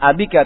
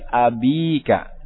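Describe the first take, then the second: First: The vowel after 'ab' is short. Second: The vowel after 'ab' is long. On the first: The speaker calls it wrong. "Bukan abika" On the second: The speaker calls it right. "tapi abika"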